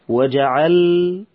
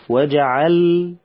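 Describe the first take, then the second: Both takes have the same delivery.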